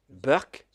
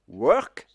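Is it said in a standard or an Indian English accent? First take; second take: Indian English; standard. First: It starts with a B sound, Indian accent. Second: It starts with a W sound, standard accent.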